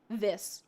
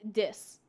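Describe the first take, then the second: First: The word begins with a th sound. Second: The word begins with a d sound. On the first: The speaker calls it right. "didn't know how to pronounce ths like in this or that" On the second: The speaker calls it wrong. "I would say dat and dis"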